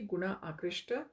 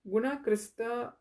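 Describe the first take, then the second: First: The consonant before the t is 'sh'. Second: The consonant before the t is a plain 's'. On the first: The speaker calls it right. "It should be Guna Akrishta" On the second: The speaker calls it wrong. "I've been saying it wrong"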